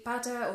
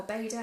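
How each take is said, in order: First: Bada, said BAH-duh; alternative pronunciation. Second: Beda, said BAY-duh; alternative pronunciation. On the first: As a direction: say bada with an open "a" first vowel. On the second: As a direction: say beda with an "ay" first vowel. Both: Shown as a demonstration. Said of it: "however you say it".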